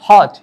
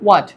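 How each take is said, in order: First: It starts with an h sound, no w. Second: It starts with a w sound. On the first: The speaker calls it wrong. "Not হট" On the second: The speaker calls it right. "It could be হোয়াট"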